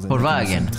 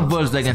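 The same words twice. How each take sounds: First: The word begins with an F sound. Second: The word begins with a V sound. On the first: The speaker calls it right. "ça se dit Volkswagen. Parce que le le le le V ou le W se dit F" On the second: The speaker calls it wrong. "Ça se dit pas Volkswagen"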